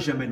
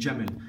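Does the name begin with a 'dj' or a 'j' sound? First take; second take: j; dj. First: It begins with a soft 'j' sound, no d. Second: It begins with a 'dj' sound, d before j. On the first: The speaker calls it wrong. "On ne dit pas Jamel" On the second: The speaker calls it right. "on dit Jamel"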